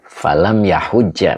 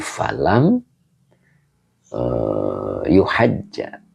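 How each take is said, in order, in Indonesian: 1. Kata kerjanya diawali ya dan diakhiri hujja. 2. Kata kerjanya diawali yu dan diakhiri hajja. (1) "Falam yahujja, bukan yuhajja ya" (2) "bukan yuhajja ya"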